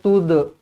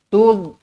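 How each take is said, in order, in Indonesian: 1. Konsonan akhir memantul menjadi vokal gema. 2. Konsonan akhir berhenti bersih tanpa gema. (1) "Jangan, jangan tude" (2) "Tud sahaja"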